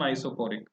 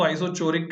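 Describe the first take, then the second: First: आइसोकोरिक with a hard k sound, ko not cho; आइसोकोरिक said with a hard k, the correct way; correct pronunciation. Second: आइसोचोरिक with a ch sound as in chair; आइसोचोरिक pronounced cho instead of ko; wrong pronunciation. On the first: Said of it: "सही pronunciation आइसोकोरिक". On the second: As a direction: say आइसोचोरिक with cho, the common mistake. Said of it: "कुछ लोग इसको आइसोचोरिक कहते हैं". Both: Shown as a demonstration.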